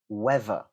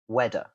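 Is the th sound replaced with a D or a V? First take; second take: V; D. First: The th is replaced by a V sound. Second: The th is replaced by a D sound. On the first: "replace it with a V. So a V sound" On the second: "you can replace it with a D"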